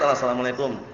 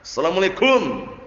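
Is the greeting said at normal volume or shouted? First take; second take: normal; shouted. First: The greeting is said at ordinary volume. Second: The greeting is shouted very loudly. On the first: It is enough when the person is close by. The speaker calls it right. "Kalau jaraknya dekat ya salam biasa" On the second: It could startle someone who is sleeping. The speaker calls it wrong. "enggak perlu teriak-teriak gitu ya"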